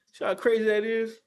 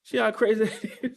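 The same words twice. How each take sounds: First: Said in the usual way. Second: Incredulous repeat broken by a laugh. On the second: Real, not acted. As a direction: laugh through the words.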